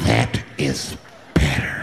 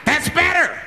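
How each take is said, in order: First: Very low, slow creep voice; menacing approval. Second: High, sudden outburst as the man; pitched-up unhinged satisfaction; crazed approval. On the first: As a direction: drop deep and draw it out with menace. Same words, low and slow. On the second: Gunman-like man approves the quiet. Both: Acted.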